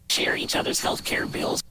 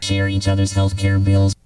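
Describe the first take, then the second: First: Noise makes the voice sound like a whisper. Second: The voice is turned into a synthesizer tone. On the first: "That's a noise. Makes it sound like a whisper" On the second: "That's synthesizer voice"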